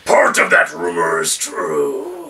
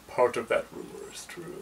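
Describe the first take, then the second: First: It is read at a louder volume. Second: It is read at a quieter, normal volume.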